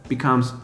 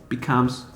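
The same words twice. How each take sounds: No difference in how they are said.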